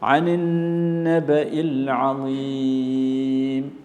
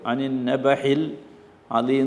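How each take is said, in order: First: The consonant after 'naba' is a glottal catch. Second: The consonant after 'naba' is an h sound. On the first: The speaker calls it right. "ആ എന്നാണ്" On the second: The speaker calls it wrong. "ഹ എന്ന് വായിക്കരുത്. അനിൻ നബഹിൽ അലീം എന്ന് പറയരുത്"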